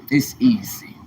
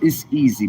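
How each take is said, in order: First: Whispered "It's easy", no voice at all; hushed whisper of "It's easy". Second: Said in the usual way. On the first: Shown as a demonstration. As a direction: breathe "It's easy" like a secret. Repeating "it's easy" several ways.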